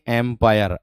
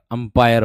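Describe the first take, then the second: First: एम्पायर starting with an "em" sound; everyday wrong एम्पायर with e first; common mispronunciation. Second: अंपायर starting with an "um" sound; careful अंपायर with short a first; corrected अंपायर. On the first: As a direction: say एम्पायर as em-paayar. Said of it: "हम कह देते हैं एम्पायर". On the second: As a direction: say अंपायर as um-paayar. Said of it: "अंपायर होता है". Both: Shown as a demonstration.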